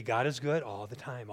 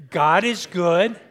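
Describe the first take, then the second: First: Said in the usual way. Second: Slow, loud call to the congregation; "God is good" drawn out loud for the crowd to answer. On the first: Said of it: "it's gonna be". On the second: Shown as a demonstration.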